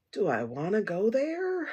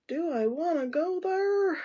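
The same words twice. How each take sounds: First: Mock hesitant wondering. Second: Heightened mock hesitancy. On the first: Torn over a stone for ancestors and mediumship, mock hesitant. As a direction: wonder it aloud, dragging the last word. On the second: Still torn over the mediumship stone, high mock hesitancy. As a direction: sing the doubt out, pitched high throughout. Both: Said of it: "And I'm like".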